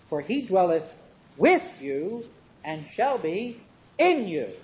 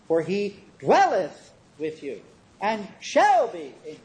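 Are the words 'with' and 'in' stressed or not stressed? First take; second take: stressed; not stressed. First: The words 'with' and 'in' carry the stress. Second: The words 'with' and 'in' are not stressed.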